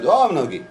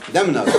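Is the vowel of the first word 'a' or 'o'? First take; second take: o; a. First: The first word has an 'o' vowel. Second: The first word has an 'a' vowel. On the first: It describes a silence, not blood. The speaker calls it right. "אלא דום נוגי" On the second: It means the blood of an innocent person. The speaker calls it wrong. "שעשו את זה בפתח, זה שיבוש"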